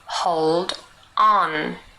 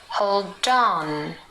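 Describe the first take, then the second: First: The two words are said separately. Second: The d runs into on, like dawn.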